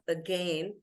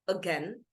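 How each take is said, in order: First: The second syllable is long, like gain. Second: The second syllable is short and clipped. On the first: The speaker calls it wrong. "not again" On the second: The speaker calls it right. "The pronunciation gets curtailed"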